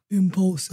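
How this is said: It is said in a deep voice.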